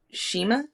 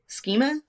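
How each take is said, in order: First: "schema" with a SH start, questioning; unsure pronunciation. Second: "Schema" with a hard SK start, questioning; hard K in "Schema", higher and rising; unsure pronunciation. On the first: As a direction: say "schema" as SHEE-muh. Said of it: "if I'm saying this right". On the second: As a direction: say "Schema" as SKEE-muh. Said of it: "don't know the correct pronunciation". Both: Shown as a demonstration.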